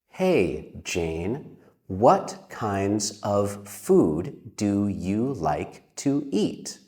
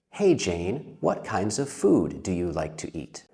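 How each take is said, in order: First: The sentence is spoken at a slower pace. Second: The sentence is spoken at a faster pace. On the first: "like this" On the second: "Let's say that a little bit faster"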